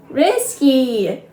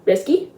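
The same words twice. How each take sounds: First: "Risky" said slowly and clearly, high, to correct him; "Risky" said slow and emphatic as a correction; correcting stress. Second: Said in the usual way. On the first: Acted. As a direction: spell out "Risky" deliberately so it is not heard as whiskey. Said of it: "Not whiskey". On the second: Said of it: "Little Bear mishears the word".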